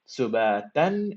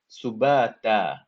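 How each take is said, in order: First: The word ends with an n sound. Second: The word ends on a long a vowel. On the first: The reciter continues to the next words. "if I was gonna continue" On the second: The reciter stops at this word. "because I'm stopping"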